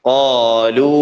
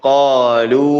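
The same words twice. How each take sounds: No difference in how they are said.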